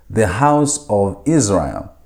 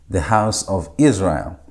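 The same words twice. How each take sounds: First: Slow, deliberate reading of the phrase; slow model translation. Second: Said in the usual way. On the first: Shown as a demonstration. Teacher modelling a translation for students, slow and deliberate. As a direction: spell the phrase out slowly for students.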